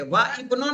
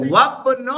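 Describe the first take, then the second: First: وا ابن with the alif sounded as a separate syllable; wrong pronunciation. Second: وابن as one word, alif silent; right pronunciation. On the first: Teacher showing students the wrong, split reading. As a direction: say وا ابن split in two, as the mistake. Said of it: "وا ابن نہیں بولیں گے". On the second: Teacher giving students the correct joined reading. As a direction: run the waw straight into بن. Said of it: "کیا بولیں گے". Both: Shown as a demonstration.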